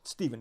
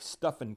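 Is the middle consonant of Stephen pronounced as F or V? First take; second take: V; F. First: The middle consonant is pronounced as a V sound. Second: The middle consonant is pronounced as an F sound. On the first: The speaker calls it right. "eventually I've learned that" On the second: The speaker calls it wrong. "which I eventually learned was not the right pronunciation"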